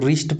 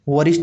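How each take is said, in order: First: The w is silent; the word begins with r. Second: The w sound is pronounced before the r. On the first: The speaker calls it right. "इसको रिस्ट पढ़ते हैं" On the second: The speaker calls it wrong. "वरिष्ठ नहीं पढ़ते"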